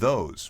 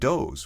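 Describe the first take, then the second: First: The word begins with a th sound. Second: The word begins with a d sound. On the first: The speaker calls it right. "with th" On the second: The speaker calls it wrong. "with d"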